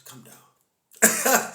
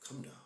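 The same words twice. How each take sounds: First: Laughing through a teasing come down. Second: Said in the usual way. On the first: Pretend. Teasing a know-it-all while cracking up, laughing. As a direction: wheeze the words out mid-laugh.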